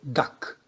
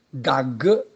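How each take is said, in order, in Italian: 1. La consonante finale è una k sorda. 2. La consonante finale è una g sonora.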